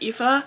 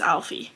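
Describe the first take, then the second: First: The name is said not like 'Alfie'. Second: The name is said like 'Alfie'. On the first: This is the book's intended version. "her name is pronounced Aoife" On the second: This is the reader's own preferred version. "I pronounced her name as Alfie"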